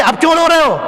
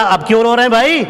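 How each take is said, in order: First: Higher teasing voice for Ibrahim; amused teasing. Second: Said in the usual way. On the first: Retold or imitated. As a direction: tease the crying leader, pitched up. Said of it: "ابراہیم کہتا ہے کہ". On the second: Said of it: "ابراہیم صاحب نے کہا".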